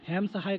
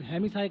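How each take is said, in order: First: "हेम सहाय" with no vowel after हेम; variant pronunciation. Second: "हेमी सहाय" with an ee after the m; variant pronunciation. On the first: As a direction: say "हेम सहाय", closing the first word on m. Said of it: "कई लोग बोल देते हैं". ("हेम सहाय", पहले शब्द के अंत में "म" पर रुकते हुए) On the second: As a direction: say "हेमी सहाय", adding an ee to the first word. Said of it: "कई लोग हेमी सहाय कहते हैं". ("हेमी सहाय", "म" के बाद "ई" की आवाज़ के साथ) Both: Shown as a demonstration.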